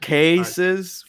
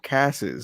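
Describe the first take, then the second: First: The first vowel is a long A sound. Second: The first vowel is a short A sound. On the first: This is the usual way. "that's how I say it" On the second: This is how the other person said it. "I heard ca- casses or something like that"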